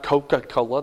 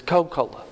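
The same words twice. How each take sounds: First: "Coca-Cola" with every syllable sounded; "Coca-Cola" in full, the middle "ca" kept; full pronunciation. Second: "Coca-Cola" clipped to "Co-Cola"; Southern shortened pronunciation. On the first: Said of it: "it's not Coca-Cola". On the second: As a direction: drop the middle "ca" from "Coca-Cola". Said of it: "they leave off chunks of words". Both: Shown as a demonstration.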